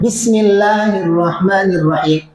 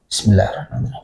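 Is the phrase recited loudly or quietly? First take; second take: loudly; quietly. First: It is recited loudly, out loud. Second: It is recited quietly, under the breath. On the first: "kalau Syafi'iyah" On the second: "dianjurkannya adalah sir, pelan"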